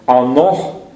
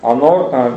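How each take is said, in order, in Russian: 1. Слово заканчивается на звук h. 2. Слово заканчивается на звук r.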